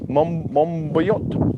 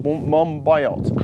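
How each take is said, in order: First: "Mombayot" drawn out slowly, ending like "bot", rising; unsure pronunciation. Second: "Mombayot" slowly with "bye-ot" ending, falling; second pronunciation attempt. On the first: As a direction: try "Mombayot" as a slow question, "MOM-bot". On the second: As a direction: sound out "Mombayot" as "mom-BYE-ot". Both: Real, not acted. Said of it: "How do you pronounce his surname?".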